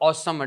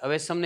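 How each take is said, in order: First: It is said with two syllables, 'aw-sam'. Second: It is said with three syllables, 'a-ve-sam'. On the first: The speaker calls it right. "પણ ઓસમ" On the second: The speaker calls it wrong. "અવેસમ નહીં"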